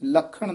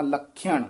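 First: ਲਖਣ as plain la-khan, without the y; two simple syllables in ਲਖਣ; wrong form shown. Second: ਲਖਿਆਣ with a y glide, lakh-yaan; careful, soft ਲਖਿਆਣ with y after kh; half-y pronunciation. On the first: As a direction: drop the y glide in ਲਖਣ. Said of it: "ਨਹੀਂ ਕਹਿਣਾ". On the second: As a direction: slip a short y into ਲਖਿਆਣ. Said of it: "ਅੱਧਾ ਯਈਆ ਹੈ ਹੇਠਾਂ". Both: Shown as a demonstration.

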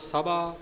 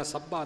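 First: ਸਭਾ as a light undoubled sa-bhaa; soft pronunciation. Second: ਸੱਭਾ as sabb-haa with a held middle consonant; mistaken doubled pronunciation. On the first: Teacher showing the right reading, ਸਭਾ soft and undoubled. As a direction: go easy on the middle of ਸਭਾ, single consonant. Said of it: "ਪੋਲਾ ਪਾਠ ਕਰਨਾ". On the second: Teacher showing what not to say, ਸੱਭਾ with doubling. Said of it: "ਨਹੀਂ ਕਹਿਣਾ". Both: Shown as a demonstration.

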